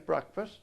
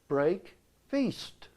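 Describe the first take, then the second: First: The second syllable sounds like 'fast'. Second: The second syllable sounds like 'feast'. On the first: "he wouldn't say breakfast" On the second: "He'd say break feast"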